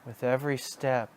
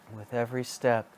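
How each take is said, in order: Both takes have the same delivery.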